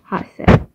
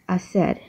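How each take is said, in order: First: The first letter h is pronounced. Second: The first letter h is silent. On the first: The speaker calls it wrong. "not hacer" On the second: The speaker calls it right. "the H in Spanish, which is he, is just silent. So that's why if we're talking about hacer, it would be hacer"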